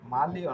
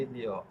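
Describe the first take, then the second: First: The first vowel is an 'a' sound. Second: The first vowel is an 'e' sound. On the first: The speaker calls it wrong. "মালিও না" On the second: The speaker calls it right.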